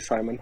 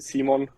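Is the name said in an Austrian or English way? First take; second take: English; Austrian. First: The name has an English pronunciation. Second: The name has an Austrian German pronunciation. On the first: This is how English speakers say it. "it's totally fine when you say Simon" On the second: This is how it is said at home. "in Austria you say Simon"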